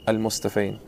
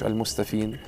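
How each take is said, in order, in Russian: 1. Окончание произносится с дифтонгом ay. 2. Окончание произносится с долгим звуком ee. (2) "Не говоришь Аль-Мустафин"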